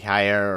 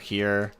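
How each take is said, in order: First: The name rhymes with the word fire. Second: The name rhymes with the word ear. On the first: "I say Higher" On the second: "the other pronunciation might be Here"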